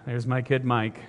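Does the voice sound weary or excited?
weary. It is said with a weary sigh.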